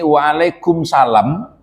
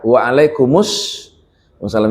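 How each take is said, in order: First: The word is said without the joined linking sound. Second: Waalaikum is joined to assalam with a linking vowel. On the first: The speaker calls it wrong. "itu kurang tepat secara ilmu tajwid" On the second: The speaker calls it right. "yang benar itu adalah waalaikumsalam... disambung"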